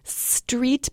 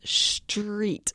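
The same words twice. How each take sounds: First: The word begins with a plain s sound. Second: The word begins with an sh-like sound.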